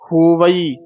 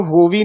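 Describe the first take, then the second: First: ਹੋਵਈ in three parts, ho-va-ee; sounded iri. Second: ਹੋਵੀ squeezed into two parts, ho-vee; dropped iri. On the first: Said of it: "ਈੜੀ ਛੱਡ ਹੀ ਦਿੰਦੇ". (ਹੋਵਈ ਵਿੱਚ ਈੜੀ ਬੋਲੋ) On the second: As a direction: wrongly shorten it to ਹੋਵੀ. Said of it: "ਨਹੀਂ ਕਹਿਣਾ।". (ਹੋਵੀ ਈੜੀ ਛੱਡ ਕੇ) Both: Shown as a demonstration.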